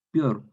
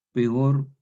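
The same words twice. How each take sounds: First: "peor" squeezed into one syllable, pior; popular Chilean. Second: "Peor" in two syllables, pe-or; careful hiatus. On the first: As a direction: say "peor" like Chilean everyday speech. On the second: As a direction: give "Peor" both vowels. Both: Shown as a demonstration. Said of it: "castellano chileno popular".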